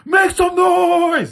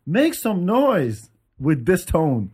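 First: High, loud, slow "Make some noise" yelled out; rally the crowd like a rock frontman; hyped shout. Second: Said in the usual way. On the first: Shown as a demonstration. Showing how a rock singer should hype the crowd, shouting. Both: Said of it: "Not like".

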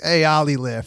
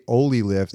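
First: Put-on light New York accent on Ollie lift. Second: Said in the usual way. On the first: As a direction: say it like a New Yorker, a bit higher. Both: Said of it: "my New York accent's like".

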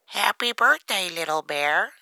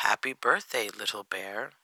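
First: High, loud duck character voice; high-pitched storybook duck. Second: Lightly voiced cat, low-key greeting; understated cat's greeting, falling away. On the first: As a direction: call out a birthday greeting as a duck. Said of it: "says Duck". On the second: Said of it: "he says". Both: A narrator's reading.

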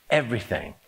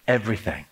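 The two takes are said the same way.

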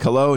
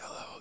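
First: Said in the usual way. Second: A barely audible hello, much softer; a distant, barely-there hello on a bad line; faint hello. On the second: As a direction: breathe the word Hello. almost inaudibly. Faint reply before line goes dead.

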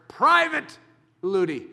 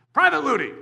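First: Emphatic "Private" then a beat before "Ludi"; stress on Private. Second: Said in the usual way. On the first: Shown as a demonstration. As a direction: lean hard on "Private" and let "Ludi" fall. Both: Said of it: "let me emphasize".

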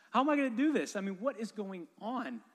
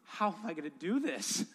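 First: Pitched way up and louder, pleading; panicked plea, voice jumping high; desperate cry. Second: Said in the usual way. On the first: Retold or imitated. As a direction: cry out to God in despair. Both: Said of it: "Lord, help me".

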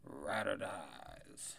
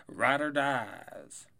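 First: "Ride or dies" very slow and quiet, falling off; soft drawn-out. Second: "Ride or dies" slow and loud, RIDE stressed; loud drawn-out. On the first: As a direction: breathe "Ride or dies" slowly and softly, low. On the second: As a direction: stretch "Ride or dies" out loudly, hitting RIDE. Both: Shown as a demonstration. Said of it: "repeats the phrase for effect".

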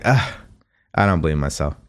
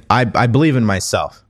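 First: Doubtful groan. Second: Said in the usual way. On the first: Retold or imitated. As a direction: lower and softer, a reluctant ugh of disbelief. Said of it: "'Cause when you say it, you're like". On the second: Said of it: "Instead of saying".

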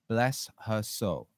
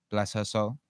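First: "Bless her soul" stretched out word by word; slow, deliberate repeat. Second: Said in the usual way. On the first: Real, not acted. Blessing repeated slowly for effect.

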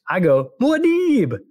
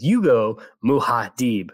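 First: Muad'Dib as mwah-DEEB, high and loud; alternative pronunciation. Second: Muad'Dib said slowly as three syllables, moo-HAH-deeb; listener's imitated pronunciation. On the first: Host showing the contrasting version, Muad'Dib as a high mwah-DEEEB. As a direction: run Muad'Dib's start together and stretch a high DEEB. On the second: Host quoting a listener's correction, Muad'Dib as moo-hah-deeb. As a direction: stretch Muad'Dib out with an h in the middle. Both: Shown as a demonstration. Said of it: "he goes".

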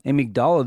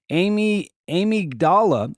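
First: Said in the usual way. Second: "amygdala" tried carefully after a false start on "amy-"; tough word attempt. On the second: Real, not acted. Newsreader stumbling on the brain's fear center word, tough word attempt. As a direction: sound out "amygdala" haltingly in pieces, higher. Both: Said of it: "this is a tough word".

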